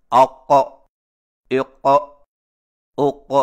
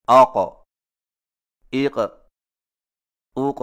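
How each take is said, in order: First: اق with the ق hit hard and doubled like a shadda; اق pronounced wrongly with excessive ق stress; overdone qalqalah. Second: آق، ایق، اوق with a light, clean ق echo; آق، ایق، اوق recited with measured qalqalah; correct qalqalah on آق. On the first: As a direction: slam the ق in اق, louder and harsher. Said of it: "اور یہ سنگین غلطی ہے". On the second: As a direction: let the ق in آق، ایق، اوق bounce just once. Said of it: "کو اس طرح پڑھا جاتا ہے". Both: Shown as a demonstration.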